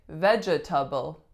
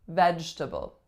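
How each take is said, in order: First: Every syllable of the word is pronounced. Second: One syllable of the word is dropped. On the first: The speaker calls it wrong. "this one looks like vegetable" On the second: The speaker calls it right. "It's vegetable"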